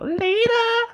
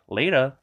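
First: It is said at a much higher pitch. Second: It is said at a lower, normal pitch.

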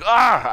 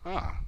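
First: It is a big, loud exclamation. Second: It is a small, quiet exclamation.

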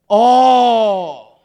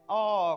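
First: It is said as a lively exclamation. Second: It is said flatly, without exclamation.

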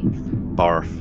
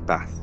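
First: The word is said in a Somerset accent. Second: The word is said in a Northern accent. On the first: "Barth, if you're through Somerset" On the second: "Northern say Bath"

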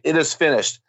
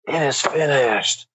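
First: It is said flatly, ending with a plain fall. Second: It is said wearily, like a tired sigh. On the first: He ended in plain, quiet defeat. "did he say that with a period?" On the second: He was simply relieved the suffering was over. "Did he die with a weary cry of relief?"

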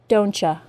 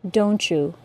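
First: You is reduced to a casual ya. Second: The t and y blend into ch. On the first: "as an informal contraction" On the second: "with the assimilated CH sound and J sound"

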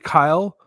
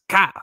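First: It is said in the speaker's normal voice. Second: It is said in a Cartman-like put-on voice.

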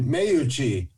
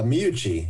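First: The name is said with an exaggerated Italian style. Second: The name is said plainly, without Italian flair.

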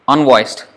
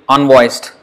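The two takes are said the same way.

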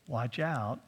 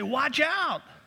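First: It is said calmly and flatly. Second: It is said loudly and urgently.

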